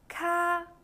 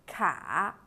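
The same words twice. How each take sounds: First: The pitch stays high and level. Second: The pitch dips low and then rises.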